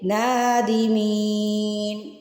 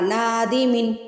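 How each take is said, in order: First: The vowel before the final n is stretched. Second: The vowel before the final n is short. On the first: The speaker calls it right. "ساکن لگا لیا" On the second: The speaker calls it wrong. "آپ نے اس کو ایسے نہیں پڑھنا"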